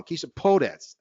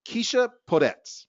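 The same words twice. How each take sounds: First: Podetz with emphasis on PO; first-syllable stress. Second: Podetz said with weak first syllable; misplaced stress. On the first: Host correcting the panelist's name, stress on first syllable of Podetz. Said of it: "first emphasis on the first syllable". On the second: Host introducing panelist Keisha, misstressed Podetz. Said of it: "I said that wrong". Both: Real, not acted.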